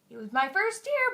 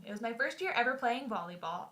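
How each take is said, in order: First: "year" pushed higher and louder; insistent repeat. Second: Said in the usual way. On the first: Real, not acted. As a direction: hammer home "year", raised.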